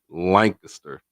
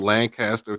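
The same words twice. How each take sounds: First: It is said the local Texas way. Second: It is said the widely used way. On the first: This is how locals name their own town. "here in Texas we say it" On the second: This is the usual name of places elsewhere. "most people say"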